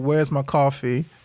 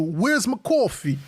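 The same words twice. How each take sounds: First: It is said in his ordinary accent. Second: It is said in a New York accent.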